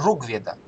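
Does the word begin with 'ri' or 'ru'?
ru. The word begins with the syllable 'ru'. This is how it is said in the south. "На юге говорят не ригведа, а ругведа"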